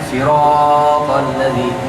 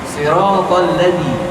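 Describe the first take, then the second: First: The vowel in 'sirat' is drawn out long. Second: The vowel in 'sirat' is kept short. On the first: The speaker calls it wrong. "jangan siratal ladzi" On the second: The speaker calls it right. "Jangan panjang, dua harakat saja"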